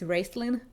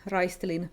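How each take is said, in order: First: The name is pronounced with English sounds. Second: The name is pronounced with Finnish sounds. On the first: "I can guess it's Raistelin" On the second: "I read most of the fantasy characters' names as Finnish people would"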